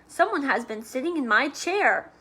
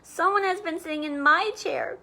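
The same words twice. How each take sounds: First: It is said in a big, deep voice. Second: It is said in a tiny, high voice.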